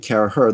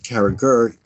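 First: The middle G sound is silent. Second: The middle G sound is pronounced. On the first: This is the original pronunciation. The speaker calls it right. "it really should be Carragher. The G should be silent" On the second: This is the common English pronunciation. The speaker calls it wrong. "everybody knows him as Carragher in England"

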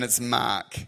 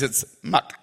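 First: It is said in an Australian accent. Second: It is said in a Chinese accent.

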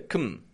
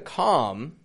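First: The syllable has a reduced schwa vowel. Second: The syllable has a full O vowel. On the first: The speaker calls it right. "It's getting just a com. There's a schwa in there. Instead of a regular O" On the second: The speaker calls it wrong. "isn't getting a com"

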